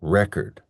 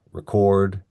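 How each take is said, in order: First: "record" as a noun, REC-ord; strong REC, reduced second syllable in "record"; stress on first syllable. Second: "record" as a verb, re-CORD; weak first syllable, stressed CORD in "record"; stress on second syllable. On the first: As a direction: hit the front of "record". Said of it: "and the noun". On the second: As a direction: hit the end of "record". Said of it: "We have the verb record". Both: Shown as a demonstration.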